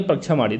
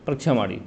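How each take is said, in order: First: Said in the usual way. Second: परीक्षा माड़ी repeated softer and lower, as an aside; quiet repeat. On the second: Shown as a demonstration. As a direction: drop the voice and say परीक्षा माड़ी again for clarity.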